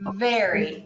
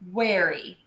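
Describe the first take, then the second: First: It starts with spread lips and a clear V. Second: It starts with rounded lips, like a W. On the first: The speaker calls it right. "We want smiling lips" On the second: The speaker calls it wrong. "rounding your lips too much and saying worry instead of very"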